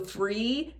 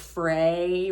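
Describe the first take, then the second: First: The vowel is a narrow ee sound. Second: The vowel is opened toward an ay sound. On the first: "that really narrow E vowel" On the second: "he says more like fray"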